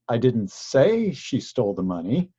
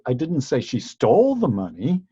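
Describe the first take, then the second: First: The stress is on "say". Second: The stress is on "stole".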